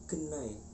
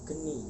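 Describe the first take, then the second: First: The word ends in an 'ai' diphthong. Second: The word ends in a plain 'i' vowel. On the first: This is how it is spoken in Osing. "pengucapannya berbeda menjadi genai" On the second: This is how it is written. "tulisannya geni"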